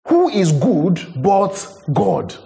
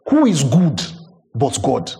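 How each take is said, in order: First: Higher and drawn out very slowly; slow emphatic repeat. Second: Said in the usual way. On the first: Shown as a demonstration. Preacher repeating the question to his congregation, slow and emphatic. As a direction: stretch every word, let it ring.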